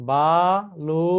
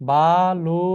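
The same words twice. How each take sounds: Both takes have the same delivery.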